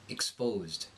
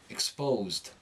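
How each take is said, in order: The two takes are said the same way.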